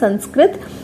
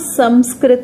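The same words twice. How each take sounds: First: The nasal in the first syllable is not m. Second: The nasal in the first syllable sounds like m. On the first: "संस्कृत नहीं होगा" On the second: "अगर संस्कृत में संस्कृत का उच्चारण किया जाए तो वो संस्कृत होगा"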